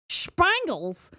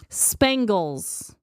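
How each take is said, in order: First: It is said in an imitated, peculiar voice. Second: It is said in the speaker's ordinary voice.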